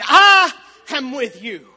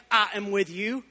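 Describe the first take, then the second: First: Loud and slow, every word hammered; booming proclamation. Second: Said in the usual way. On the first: Acted. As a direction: declare it as God's own voice. Quoting God at the climax.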